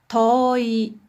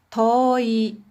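No difference in how they are said.

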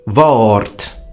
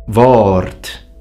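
No difference in how they are said.

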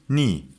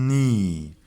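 First: The syllable is said quickly as one unit. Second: The syllable is said slowly and drawn out.

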